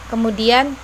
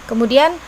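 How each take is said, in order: Both takes have the same delivery.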